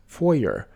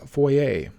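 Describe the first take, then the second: First: Foyer said FOY-er; correct pronunciation. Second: Foyer said foy-AY; common mispronunciation. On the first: Teacher showing viewers the right way. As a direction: say foyer ending in -er. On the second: Teacher showing viewers the wrong way. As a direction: say foyer ending in -ay. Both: Shown as a demonstration. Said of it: "often mispronounced as foyer".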